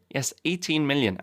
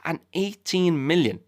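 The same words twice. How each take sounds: First: "eighteen" restated with a lighter, quicker lift; repeated for emphasis. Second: "eighteen" drawn out slow and high, hit hard; stress on eighteen. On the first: Repeating the number to the audience, lighter emphasis. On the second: Telling listeners the audience size, "eighteen" stressed slow. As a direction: lean slowly on "eighteen" to make the number land. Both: Real, not acted.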